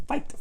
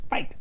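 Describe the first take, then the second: Both takes have the same delivery.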